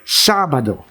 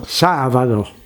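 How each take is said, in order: First: The middle consonant is a full, hard b. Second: The middle consonant sounds almost like a v. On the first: This is how Filipinos say it. "we say Sabado" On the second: This is how Spanish speakers say it. "the Spanish pronounce the B almost like a V"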